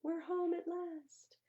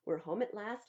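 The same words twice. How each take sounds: First: High, slow happy sigh; relieved cry. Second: Said in the usual way. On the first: Acted. Family arriving home at last, high relieved cry. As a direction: sing out the relief.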